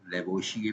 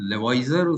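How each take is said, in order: First: The name is said with a Hindi-style ending. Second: The name is said with an English-style ending. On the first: "Hindi वाले उसको लेवोशिए पढ़ते हैं" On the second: "अंग्रेजी में लेवॉइजर उसको pronounce किया जाता है"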